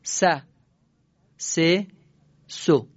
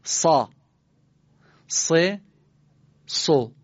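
First: "س، س، سو" with a thin, ordinary S, one syllable at a time; plain sin drill. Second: "سا، س، سو" with a heavy S from the throat, one syllable at a time; thick throaty sad. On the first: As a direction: model "س، س، سو" lightly for repeating, pauses between. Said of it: "پشت سر من سین رو بگید". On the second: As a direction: model "سا، س، سو" dark and emphatic, pauses between. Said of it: "این سین رو سعی کنید درشت از گلوتون بگید". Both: Shown as a demonstration.

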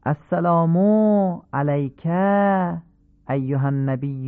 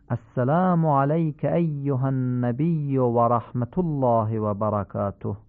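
First: Faulty lengthening; wrongly stretched vowels. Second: «السلام علیک» with short vowels short, slowish; proper measured salam; correct lengths. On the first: Teacher demonstrates the incorrect stretched salam. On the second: Teacher models the correct salam for listeners. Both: Shown as a demonstration. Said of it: "این کشش ها درست نیست".

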